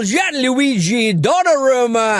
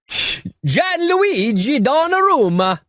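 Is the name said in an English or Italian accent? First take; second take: English; Italian. First: The name is said in a plain English accent. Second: The name is said in an exaggerated Italian accent.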